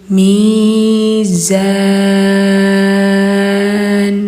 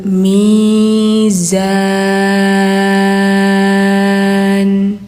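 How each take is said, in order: The two takes are said the same way.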